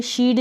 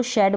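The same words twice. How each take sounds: First: शीड with a long ee; wrong pronunciation. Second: Said in the usual way. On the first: Shown as a demonstration. Teacher rejects a reading of shed, mispronounced शीड. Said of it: "शीड नहीं बोलेंगे". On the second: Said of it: "इसको शेड बोलेंगे".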